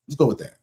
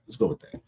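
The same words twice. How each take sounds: First: Said in the usual way. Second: Softer, unvoiced repeat of the same words; whispered. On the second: Shown as a demonstration. Brushing off a friend's excuse, whispered aside. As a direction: whisper "Let's go with that" under your breath.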